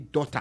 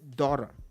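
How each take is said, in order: First: It is said with a Nigerian accent. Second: It is said with an American accent. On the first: This is how a Nigerian newcomer says it. "and you say daughter" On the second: This is how people in America say it. "if they say daughter in America"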